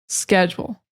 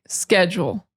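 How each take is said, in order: No difference in how they are said.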